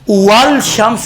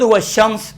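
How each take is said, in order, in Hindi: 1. sh ध्वनि से पहले L साफ़ बोला जाता है। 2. L चुप रहता है और sh ध्वनि में मिल जाता है। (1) "नहीं पढ़ेंगे" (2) "खुद वह शम्स देखें"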